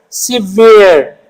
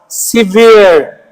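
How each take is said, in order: The two takes are said the same way.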